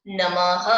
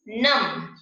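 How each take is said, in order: First: नमः closed on an audible h, said louder; breathy h ending. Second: Said in the usual way. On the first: Shown as a demonstration. Teacher demonstrating the visarga to pupils. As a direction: add a breathy h after नमः. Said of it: "विसर्ग लगा के पढ़ोगे तो कैसे करोगे उच्चारण". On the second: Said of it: "बिना विसर्ग के".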